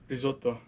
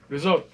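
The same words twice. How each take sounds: First: It is said the Italian way, with every syllable. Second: It is said Italian-American style, dropping the last syllable.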